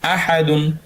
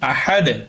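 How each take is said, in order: First: The word ends with an added -un syllable. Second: The word ends abruptly on the d consonant. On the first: The recitation continues without stopping. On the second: The reciter stops at this word.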